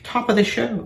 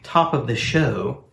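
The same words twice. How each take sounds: First: It is said in an attempted Irish accent. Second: It is said in the speaker's ordinary accent. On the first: "Or in Irish industry speak" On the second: "in industry speak"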